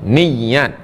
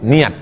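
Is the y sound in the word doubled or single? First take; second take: doubled; single. First: The y sound is doubled and held longer. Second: The y sound is single, not lengthened. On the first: This is the original Arabic form. The speaker calls it right. "yang betul itu adalah bin niat, bit tasdid, ada tasdidnya" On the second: This is the Indonesian loanword form. The speaker calls it wrong. "udah jadi bahasa Indonesia nggak pakai tasdid"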